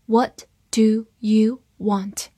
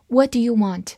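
First: "What... do... you... want", word by word; slow reading. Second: Said in the usual way. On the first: Shown as a demonstration. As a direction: read slowly, separating each word. (慢读，一词一顿) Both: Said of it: "我们慢读一遍".

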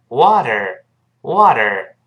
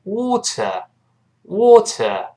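First: "water" the American way, tapped t and final r. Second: "water" the British way, crisp t and no final r. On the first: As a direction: say American "wah-der". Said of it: "美国人读成". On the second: Teacher contrasting accents, British "water" with a true t. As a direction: say British "waw-tuh". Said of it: "英国人读成". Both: Shown as a demonstration.

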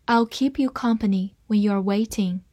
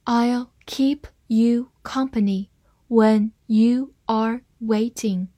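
First: Said in the usual way. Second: Word-by-word slow model reading. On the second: Shown as a demonstration. Teacher reading the example sentence for learners, slowly. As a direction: read it slowly, each word set apart. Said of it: "好，慢慢来读".

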